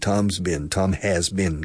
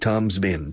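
First: The word has is said in full. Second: The word has is contracted onto Tom.

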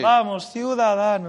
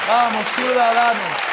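First: The phrase is said quietly. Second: The phrase is said loudly. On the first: The speaker calls it right. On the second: The speaker calls it wrong.

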